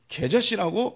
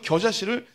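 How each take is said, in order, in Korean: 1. 첫 모음은 'ae' 소리입니다. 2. 첫 모음은 'yeo' 소리입니다. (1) "겨자 발음을 못해서 개자라고 하시는 거죠"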